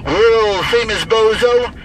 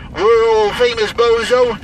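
Both takes have the same delivery.

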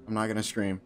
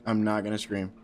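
Both takes have the same delivery.

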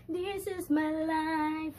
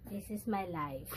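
First: High, loud, long-drawn-out declaration; exuberant proclamation. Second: Said in the usual way. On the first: Real, not acted. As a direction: stretch every word out high and proud. Exuberant repeat after laughing.

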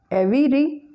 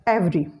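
First: "every" higher, as EV-ee-ree; wrong three-syllable version. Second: "every" as two syllables, EV-ree; schwa after V deleted. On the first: Teacher showing what to avoid, "every" said as ev-ee-ree. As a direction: put an extra vowel after V in "every". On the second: Teacher showing the correct form, "every" said as EV-ree. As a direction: run V straight into R in "every". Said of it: "The schwa sound after V is deleted". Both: Shown as a demonstration.

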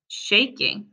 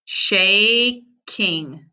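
First: Said in the usual way. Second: "Shaking" stretched slowly, sound by sound. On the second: Shown as a demonstration. Teacher to pupils: "Shaking" sounded out slowly. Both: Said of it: "I'm gonna sound them out".

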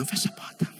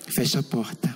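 First: Whispered insistence, voiceless; suggestive whisper. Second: Lower, voiced, matter-of-fact request; low doctor voice. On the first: Retold or imitated. Doctor to patient, insisting in a whisper. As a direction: hush it like a secret invitation. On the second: Doctor to patient, low voiced request. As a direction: ask it plainly from a lower register. Doctor asking to close door.

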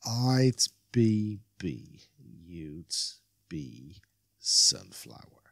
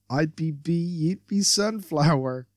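First: Stumbling. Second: Said in the usual way. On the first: Acted. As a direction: fumble for each word, trailing down low.

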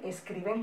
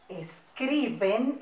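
First: Said in the usual way. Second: Word broken into drawn-out syllables; slow dictation. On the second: Shown as a demonstration. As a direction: dictate it slowly for copying. Teacher dictating, then repeats normally. (dictado lento, por sílabas)

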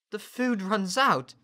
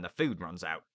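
First: High, loud, slow echo; high-pitched child's disbelief; alarmed boy. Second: Officer's casual threat at usual pitch; lightly voiced rough sailor; matter-of-fact officer. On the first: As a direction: repeat it as an appalled question. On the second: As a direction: state it as a plain fact. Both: A narrator's reading.

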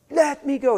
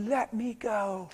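First: Loud, high-pitched demand; acted outburst, high and loud; retold yell. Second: Slow, higher-pitched plea; acted child pulling away; retold plea. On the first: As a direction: imitate a boy yelling to break free. Retold boy fighting to get free. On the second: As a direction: drag out the boy's protest, high. Retold boy pulling away when grabbed.

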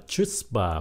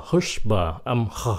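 First: CHUTZPAH with "ch", "chuts-ba"; spelling-based mistake. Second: HUSHBA with a hawked H at the start; throaty H sound. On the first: Teacher shows the wrong guess, CHUTZPAH with a CH. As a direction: say CHUTZPAH as it looks. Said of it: "nhìn vô tưởng phát âm là". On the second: Teacher shows the true reading, HUSHBA with a hawked H. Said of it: "Mình phải khạc cái đó". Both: Shown as a demonstration.

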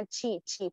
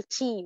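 First: تشي slowly with a ch hiss as a mistake; mock the error تشي with a clear ch; wrong hissed t. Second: تشي said with a ch hiss, the wrong way. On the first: Teacher showing students the mistake, slow and deliberate. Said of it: "كله لأ". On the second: معلمة تجويد تنطق تشي خطأ بصفير. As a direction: demonstrate the mistake تشي with a ch sound. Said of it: "ما ينفعش أقول تشي". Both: Shown as a demonstration.

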